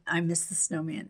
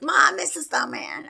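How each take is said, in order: First: Said in the usual way. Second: Put-on high, sing-song kids' taunt; mock kid voice chanting it; teasing kids. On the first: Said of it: "say that I'm". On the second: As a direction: tease mom like her kids did. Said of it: "the kids were like".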